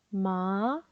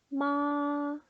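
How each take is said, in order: First: The pitch rises toward the end. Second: The pitch stays high and level throughout. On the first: "이성은 끝음을 올리시면 돼요" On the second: "높고 길게 뺍니다"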